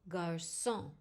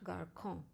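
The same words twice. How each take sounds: First: The middle consonant is an s sound. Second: The middle consonant is not an s sound. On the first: The speaker calls it right. "the S sound as in sit" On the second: The speaker calls it wrong.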